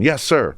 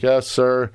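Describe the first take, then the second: First: It is said crisply and fast. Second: It is said slowly and half-heartedly.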